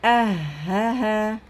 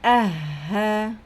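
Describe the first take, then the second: The two takes are said the same way.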